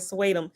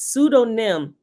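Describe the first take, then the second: First: The word is said as a two-syllable 'swatum'. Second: The word is said as a three-syllable 'pseudonym'. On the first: The speaker calls it wrong. "I've been saying this wrong all this time. I said Swatum" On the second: The speaker calls it right. "It's pseudonym"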